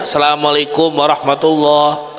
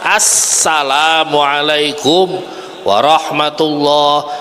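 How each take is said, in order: First: The s sound is short and single. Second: The s sound is held long and doubled. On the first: The speaker calls it wrong. "Kadang-kadang begitu aja bacanya" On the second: The speaker calls it right. "Harusnya gimana?"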